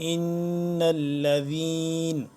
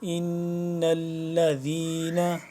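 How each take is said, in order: First: The word ends on a consonant. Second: The word ends with a final vowel.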